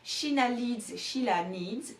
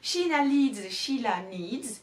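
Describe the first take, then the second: Both takes have the same delivery.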